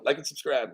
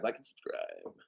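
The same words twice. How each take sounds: First: Said in the usual way. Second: A soft throwaway repeat; muttered echo. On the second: Real, not acted. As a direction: repeat it much softer and lower under your breath. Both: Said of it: "repeated plea".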